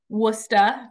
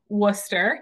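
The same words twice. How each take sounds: First: The word ends with an 'ah' sound. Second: The word ends with an 'er' sound. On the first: "trading the E R for an A H, um, as uh, you may find with the Boston accent" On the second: "that is how you pronounce that word"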